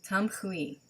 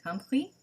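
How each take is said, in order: First: Said in the usual way. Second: "Tamhui" higher, rising at the end as a question. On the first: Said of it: "get the emphasis on the right syllable". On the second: Real, not acted. Host unsure of the Hebrew word, questioning "Tamhui" with rising pitch. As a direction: try "Tamhui" doubtfully with an upward lilt. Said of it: "I'm not sure on this one".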